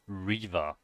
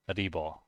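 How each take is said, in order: First: The word ends with an 'er' sound. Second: The word starts with 'b' and ends with 'o'. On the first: "there's a unit called Reaver" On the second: "the Korean casters are always pronouncing it uh, Ribo, Ribo. So it's like uh, like this"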